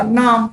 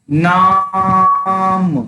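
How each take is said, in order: First: नाम with an ordinary long आ; नाम said with a normal dirgha vowel. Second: नाम with the आ stretched very long and slow; drawn-out vowel. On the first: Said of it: "तो यहाँ पे दीर्घ स्वर का उपयोग हुआ". (नाम दीर्घ आ के साथ) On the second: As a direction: hold the आ in नाम three times as long. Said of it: "तो देखिए अब यहाँ पे प्लुत का उपयोग हुआ है". (नाम में आ को खींचकर प्लुत बोलें) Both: Shown as a demonstration.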